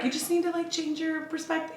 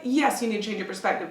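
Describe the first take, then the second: First: High, softer sugary advice voice; mock super-positive. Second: Said in the usual way. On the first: Client mocking positive-thinking advice to hosts, high and airy. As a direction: parody empty positivity with a lifted, lighter pitch. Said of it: "All that positive, super positive B S".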